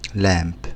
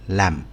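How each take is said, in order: First: The vowel is long and open. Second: The vowel is short and closed. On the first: The speaker calls it right. "بس هي بتنطق برضو لام" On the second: The speaker calls it wrong. "في ناس بيقولوها لم"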